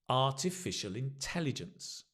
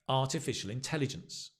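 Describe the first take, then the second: First: The phrase is said slowly and carefully. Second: The phrase is said quickly and smoothly.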